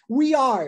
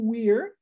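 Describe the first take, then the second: First: Two full words are said separately. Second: The words merge into one quick syllable.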